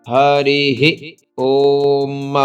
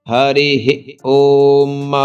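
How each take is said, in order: Both takes have the same delivery.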